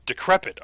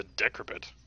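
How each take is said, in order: First: "Decrepit" loud, stressed on the second syllable; corrected stress. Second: "decrepit" stressed on the first syllable; mis-stressed word. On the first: Player corrects himself, "Decrepit" stressed firmly on the second syllable. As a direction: hit the middle of "Decrepit": de-CREP-it. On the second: Player puzzles over an unknown word, "decrepit" stressed on first syllable. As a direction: say "decrepit" as DEK-repit, wrong syllable stressed. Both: Shown as a demonstration. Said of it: "put the emphasis on the right syllable".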